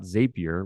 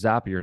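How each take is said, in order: First: The word does not rhyme with happier. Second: The word rhymes with happier. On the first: The speaker calls it wrong. "not Zapier" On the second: The speaker calls it right. "It's pronounced Zapier, ... like happier"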